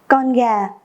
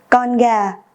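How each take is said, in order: The two takes are said the same way.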